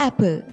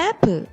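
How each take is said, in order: No difference in how they are said.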